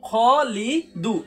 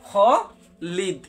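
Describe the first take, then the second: First: The word ends with a final u vowel. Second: The word ends on the bare d consonant. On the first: The word is read as written, without stopping. "কি দেওয়া আছে?" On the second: The reader stops at the end of the verse. "থামার চিহ্ন থাকার কারণে শেষের হরফটা যোজম হয়ে যাবে"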